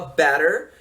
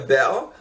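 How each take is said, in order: First: It is said in an American accent. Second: South London accent, dropping the t and r. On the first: "o americano fala better" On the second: "O sul de Londres, eles cortam os T's e não falam R"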